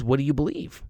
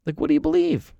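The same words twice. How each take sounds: First: Said in the usual way. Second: Much higher, pressing "do"; emphatic repeat. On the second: Real, not acted. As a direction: push the question home, pitched high. Question asked twice, pushed.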